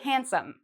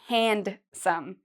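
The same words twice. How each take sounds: First: The D sound is left out. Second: The D sound is clearly pronounced. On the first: The speaker calls it right. "So it's as if this D isn't there" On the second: The speaker calls it wrong. "we don't say handsome"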